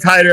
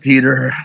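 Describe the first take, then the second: First: The first syllable sounds like 'tie'. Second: The first syllable sounds like 'tee'. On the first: This is the speaker's own way of saying it. "I call it Titor" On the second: This is how everyone else says it. "Everybody else calls it Teeter"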